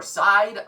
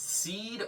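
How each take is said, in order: First: Side, with a long eye vowel; SEID as "side". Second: Seed, with a long ee vowel; SEID as "seed". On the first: Reviewer offering another guess at a band name, pronounced Side. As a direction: say Side to rhyme with ride. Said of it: "I'm not sure". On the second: Reviewer guessing at a band name, pronounced Seed with long ee. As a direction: say Seed to rhyme with need. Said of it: "I'm probably gonna mispronounce". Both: Shown as a demonstration.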